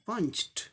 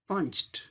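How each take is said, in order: The two takes are said the same way.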